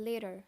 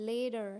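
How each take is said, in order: Both takes have the same delivery.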